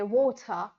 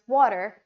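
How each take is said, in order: First: It is said in a British accent. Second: It is said in an American accent. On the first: "a British guy will say" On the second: "Americans will pronounce it as"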